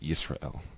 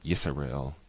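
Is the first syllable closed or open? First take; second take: closed; open. First: The S closes the first syllable. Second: The S starts an open second syllable. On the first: The speaker calls it right. "but Yisrael, closed" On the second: The speaker calls it wrong. "not Yisrael"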